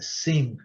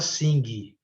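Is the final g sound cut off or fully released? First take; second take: cut off; released. First: The final g sound is started but cut off. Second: The final g sound is fully released. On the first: The speaker calls it right. "O G começa a ser falado, mas não é terminado" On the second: The speaker calls it wrong. "A gente não fala sing"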